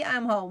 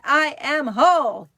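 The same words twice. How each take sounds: First: Said in the usual way. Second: Loud, higher, emphatic affirmation; like meaning it. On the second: Shown as a demonstration. Host urging viewers to mean the mantra, loud and emphatic. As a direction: belt it out with full conviction. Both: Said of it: "Say it like you mean it".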